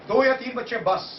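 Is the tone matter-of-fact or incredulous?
matter-of-fact. It sounds matter-of-fact, stating enough.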